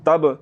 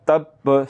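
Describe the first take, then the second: First: "तब" closing on one b, no held stop; single silent b. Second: "तब" as "tab", pause, "ba"; held doubled b. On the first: Teacher shows the error, undoubled b in तब. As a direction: end "तब" straight on a single b. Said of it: "जो कि सिर्फ साकिन है". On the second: Teacher shows the breath stopping, doubled b in तब. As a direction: catch the breath on b in "तब", then release. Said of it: "सांस थोड़ा सा रुक रहा". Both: Shown as a demonstration.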